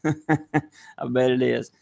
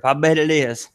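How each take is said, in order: First: Slow chuckling repeat; laughing. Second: Said in the usual way. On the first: Real, not acted. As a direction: say it through a laugh.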